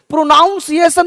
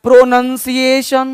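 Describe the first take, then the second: First: प्रोनाउंसिएशन with a higher-pitched "naun" syllable; wrong pronunciation. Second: प्रोनंसिएशन slowly, with short "nun" in the middle; correct pronunciation. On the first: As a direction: demonstrate the mistake प्रोनाउंसिएशन, "nown" as in pronounce. (गलत उच्चारण प्रोनाउंसिएशन, "नाउन" के साथ) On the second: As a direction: model प्रोनंसिएशन slowly, ending in "shun". (सही उच्चारण प्रोनंसिएशन, धीरे, "नन" के साथ) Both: Shown as a demonstration. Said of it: "नहीं होता है".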